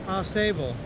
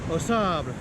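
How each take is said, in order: First: The name is said with an English pronunciation. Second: The name is said with a French pronunciation. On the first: This is how people in the area say it. The speaker calls it right. "That's how they say it" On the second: This follows the word's French origin. The speaker calls it wrong. "it's French derived, so I was thinking it would be like Au Sable, but no"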